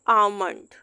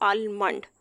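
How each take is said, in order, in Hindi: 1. M से पहले कोई L की आवाज़ सुनाई नहीं देती। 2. M से पहले एक L की आवाज़ सुनाई देती है। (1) "एल यहाँ पे साइलेंट होता है" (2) "हम इसको ये नहीं पढ़ सकते"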